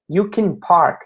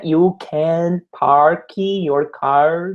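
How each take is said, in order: First: "you can park" linked, with "can" reduced and run straight into "park"; right pronunciation. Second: "you can park your car" with each word separate and "can" said on its own; wrong pronunciation. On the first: Teacher showing students the right way, with the words linked. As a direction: say "you can park" in one breath, so that "can park" sounds like "kenpark". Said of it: "É you can park". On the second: Teacher showing students the wrong way, slowly, word by word. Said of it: "Não é you can park your car". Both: Shown as a demonstration.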